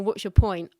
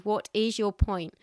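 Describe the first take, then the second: First: It is said in a dismissive, snarky tone. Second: It is said in a sincere, serious tone.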